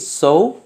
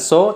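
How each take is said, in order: First: The vowel glides slightly toward a u sound. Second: The vowel is a plain o without glide. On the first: The speaker calls it right. "tapi so, ada u sedikit" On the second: The speaker calls it wrong. "jadi bukan so"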